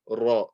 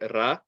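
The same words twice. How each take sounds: First: The sound is heavy, with rounded lips. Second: The sound is light, with flat unrounded lips. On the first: The speaker calls it right. "We're going to get that roundness uh, of the mouth" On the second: The speaker calls it wrong. "we're not going to say Ra"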